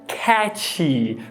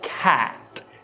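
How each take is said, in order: First: The word ends with a ch-like sound. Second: The word ends with a plain t sound. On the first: The speaker calls it wrong. "a gente acaba pronunciando cat" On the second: The speaker calls it right. "quando na verdade é cat"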